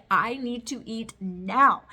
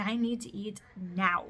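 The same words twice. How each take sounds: First: Louder and slow, demanding food; half-joking hangry outburst; mock hangry demand. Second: Said in the usual way. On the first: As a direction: play your own hangry self, loud and drawn out. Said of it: "I get mad when I'm hungry". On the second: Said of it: "and I'm hungry".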